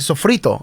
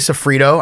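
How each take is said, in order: First: It is said with a Puerto Rican Spanish accent. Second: It is said with an Anglicized American accent.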